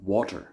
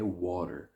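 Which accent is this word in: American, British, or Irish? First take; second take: Irish; American. First: The t falls between a hard t and d. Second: The t sounds almost like a d. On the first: "in Ireland, it's water. So it's a mixture of the two" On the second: "In America, it could be water. Like it's almost like a D sound"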